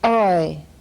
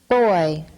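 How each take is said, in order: First: The initial b is replaced by a glottal stop. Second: The initial b is a normal oral stop. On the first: "glottal stop substitution" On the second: "normal stop"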